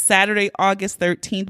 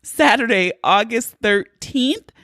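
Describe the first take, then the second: First: Said in the usual way. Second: Emphatic promo read of "Saturday, August thirteenth"; announced date. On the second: Real, not acted. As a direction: land "Saturday, August thirteenth" like the big news it is.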